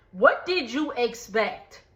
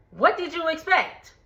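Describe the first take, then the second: First: Said in the usual way. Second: What did you expect, pitched up in disbelief; higher exasperated repeat. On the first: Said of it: "repeats the question". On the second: Real, not acted. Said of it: "repeats it higher".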